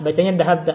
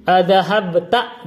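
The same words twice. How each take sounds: First: Said in the usual way. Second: Adhahabta read slowly with a rising end; slow questioning reading. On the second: Shown as a demonstration. Teacher showing students the word Adhahabta as written, slow and rising.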